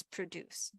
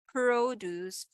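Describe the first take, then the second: First: Produce with a short, light first syllable, stress on DUCE. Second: Produce with a long, loud first syllable PRO; stress on PRO. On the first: Teacher contrasting word stress for reviewees, produce stressed on DUCE. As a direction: pass quickly over pro, land on DUCE in produce. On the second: Teacher showing reviewees a stress contrast, produce stressed on PRO. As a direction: lean slowly on the PRO of produce. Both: Shown as a demonstration. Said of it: "stress like".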